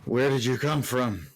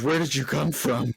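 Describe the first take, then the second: First: It is said in a plain, flat way. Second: It is said with renewed, eager enthusiasm.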